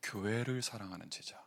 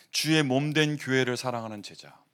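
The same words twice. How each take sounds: First: Said in the usual way. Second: 주의 said louder as the key word; emphatic restatement. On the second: Shown as a demonstration. Pastor drilling the congregation, louder and emphatic. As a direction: press 주의 harder on the repeat. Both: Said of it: "칠십인 제자 뭐라고요?".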